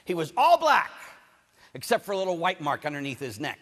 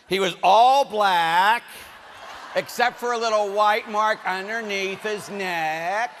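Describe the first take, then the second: First: Said in the usual way. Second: "He was all black" drawn out slow and loud, "white" lifted; slow emphatic repeat. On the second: Shown as a demonstration. Preacher slowing down so the congregation can repeat it. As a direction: repeat it slowly so the congregation catches it. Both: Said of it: "Explain it to the person next to you".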